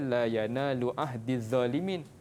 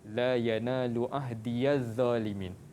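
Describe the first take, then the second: First: The ya after ahdi is not voiced. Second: The ya after ahdi is voiced with a. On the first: This is the common reading. "Kita baca" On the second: This is another transmitted reading. "Qalun baca dengan"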